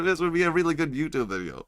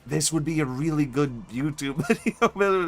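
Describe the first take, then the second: First: Said in the usual way. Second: Laughing. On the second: Real, not acted. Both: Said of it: "milk this bit".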